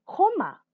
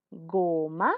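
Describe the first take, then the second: First: Joma said with a throaty j, like a strong h; joma, rough j at the back; wrong harsh j. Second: Goma said with a soft g, as in go; goma, gentle voiced g. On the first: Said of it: "Tú no dices jato". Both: Shown as a demonstration.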